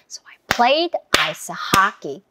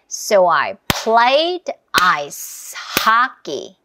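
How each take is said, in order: First: It is said at a medium pace. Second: It is said at a slow pace.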